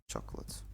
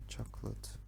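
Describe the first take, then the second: No difference in how they are said.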